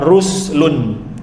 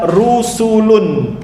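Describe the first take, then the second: First: No vowel is heard between the s and l. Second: An u vowel is heard between the s and l. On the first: "bisukuni sin, dibaca ruslun" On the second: "dengan mendomahkan huruf sin"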